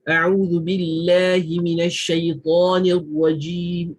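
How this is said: The voice is light and shaped only by the mouth. It only corrects articulation and recitation rules. "Kalau kita cuma konsentrate pada mulut saja"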